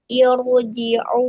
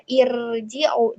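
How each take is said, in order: First: Irji'u with a thick heavy ra; correct heavy ra. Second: Irji'u with a thin light ra; wrong thin ra. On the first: Teacher giving the right heavy ra in irji'u. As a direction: recite irji'u with the ra full and heavy. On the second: Teacher showing the wrong thin ra in irji'u. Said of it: "jangan dibaca irji'u". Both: Shown as a demonstration.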